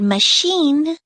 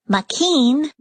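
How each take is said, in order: First: The middle consonant is an sh sound. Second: The middle consonant is not an sh sound. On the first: The speaker calls it right. "You say the word machine with a sh sound" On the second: The speaker calls it wrong. "It doesn't make any sense to say"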